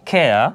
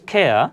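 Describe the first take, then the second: No difference in how they are said.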